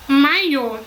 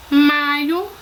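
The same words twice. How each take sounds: First: "maiô" stressed on the final ô; teacher's contrast word, "maiô" stressed at the end; stress on last syllable. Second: "Maio" stressed on MAI; teacher's contrast word, "Maio" stressed at the start; stress on first syllable. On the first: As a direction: land firmly on the end of "maiô". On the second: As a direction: hit the start of "Maio", leave the o light. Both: Shown as a demonstration. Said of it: "se não estiverem acentuadas".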